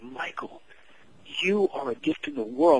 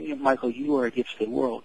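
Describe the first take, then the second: First: It is said intensely, with great energy. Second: It is said casually, with little energy.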